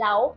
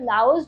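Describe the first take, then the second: First: The word ends without any s sound. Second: The word ends with an audible s sound. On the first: This is how local people say the name. "Locals इसको लाओ बोलते हैं" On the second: This is how English speakers say the name. "English pronunciation है"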